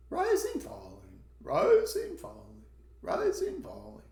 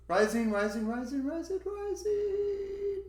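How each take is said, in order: First: Exaggerated see-saw between "rising" and "falling"; rising-falling intonation. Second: "rising" repeated, each one climbing higher; teacher's exaggerated climb on every "rising"; rising intonation. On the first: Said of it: "so they are different". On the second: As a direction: chant "rising" up a ladder to a very high pitch. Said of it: "the one that only goes up". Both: Shown as a demonstration.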